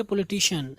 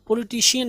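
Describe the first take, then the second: First: पॉलिटिशियन ending in a short "shun"; correct pronunciation. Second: पॉलिटिशियन ending in "shi-yan"; wrong pronunciation. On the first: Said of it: "पॉलिटिशियन नहीं पढ़ेंगे". (पॉलिटिशियन के अंत में "शन") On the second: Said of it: "नहीं पढ़ेंगे". (पॉलिटिशियन के अंत में "शियन") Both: Shown as a demonstration.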